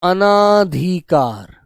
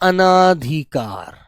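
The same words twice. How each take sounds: First: A long aa vowel follows the first syllable. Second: A long aa vowel follows the first syllable.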